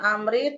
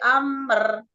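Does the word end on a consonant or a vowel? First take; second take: vowel; consonant. First: The word ends with an added i vowel. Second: The word ends on the r, no vowel. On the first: The speaker calls it wrong. "Bukan amri" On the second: The speaker calls it right. "tapi amr"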